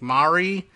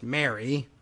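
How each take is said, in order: First: The name has a fancy, foreign-sounding pronunciation. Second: The name sounds like the ordinary name Mary. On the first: The owner gives her name a pretentious twist. "a pretentious pronunciation like Mari" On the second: It is an ordinary name with an unusual spelling. "just Mary, but with a funny spelling"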